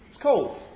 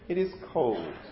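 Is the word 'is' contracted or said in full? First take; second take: contracted; full. First: The word 'is' is reduced and joined to 'it'. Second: The word 'is' is said as a full syllable.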